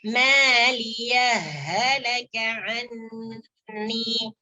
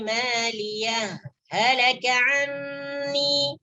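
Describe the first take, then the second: First: The two h sounds merge without any break. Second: A brief stop without breath comes after maliyah. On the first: "hak yang sukun ini dimasukkan ke dalam hak yang kedua" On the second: "dengan saktah. Berhenti sejenak ya, berhenti sejenak tanpa mengambil nafas"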